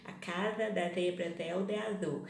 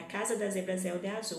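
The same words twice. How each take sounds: First: The z sounds are lisped like English th. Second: The z sounds are plain Portuguese z sounds.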